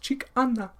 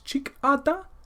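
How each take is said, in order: First: The middle consonant is an n sound. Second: The middle consonant is a d sound. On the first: This is the Nakota dialect form. "in Dakota it's" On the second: This is the Dakota dialect form. "in Dakota it's"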